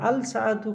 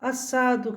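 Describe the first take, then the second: First: The article's L is clearly heard before S. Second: The article's L merges into a doubled S.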